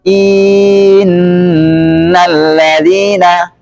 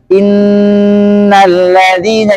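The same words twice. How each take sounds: First: A vowel is drawn out too long. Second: The vowels are of normal length.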